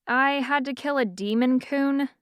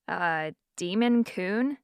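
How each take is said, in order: First: Said in the usual way. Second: Incredulous repeat. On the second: Acted. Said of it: "Eleanor repeated".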